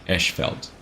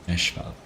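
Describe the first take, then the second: The two takes are said the same way.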